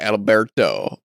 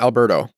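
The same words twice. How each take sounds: First: The R is rolled, in a Spanish way. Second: The R is a plain American English R. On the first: The speaker calls it wrong. "What's this R?" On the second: The speaker calls it right.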